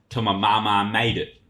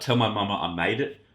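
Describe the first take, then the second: First: It is said imitating the rapper's weird voice. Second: It is said in the speaker's own voice.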